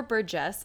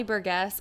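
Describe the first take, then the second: First: Burgess with a soft G, like "jess". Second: Burgess with a hard G, like "guess". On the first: Offering another guess at the patron's name, Burgess with soft G. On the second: Reading out a patron's last name, Burgess with a hard G. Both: Shown as a demonstration. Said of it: "don't know how to pronounce".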